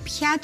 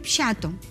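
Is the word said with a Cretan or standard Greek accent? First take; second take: standard; Cretan. First: It is said with a standard Greek pronunciation. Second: It is said with a Cretan dialect pronunciation. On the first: "αντί πιάτο λοιπόν" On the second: "Τα κριτικόπουλα ... λένε πιάτο"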